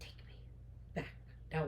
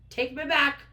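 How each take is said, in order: First: Very soft, word-by-word demand; quiet, halting acted command; hushed insistence. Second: Louder, higher acted order; indignant, raised-voice command; firm demand. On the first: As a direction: drop to a near-whisper, pausing between words. Repeats demand after his plea. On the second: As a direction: demand it forcefully. Heroine demands to leave.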